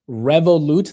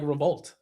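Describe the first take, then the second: First: The name is said with three syllables. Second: The name is said with two syllables. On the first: The speaker calls it right. "that's how you say it?" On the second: The speaker calls it wrong. "it looked like Revolt"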